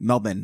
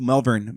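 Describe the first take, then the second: First: It is said the way Australians say it. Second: It is said in the speaker's usual accent.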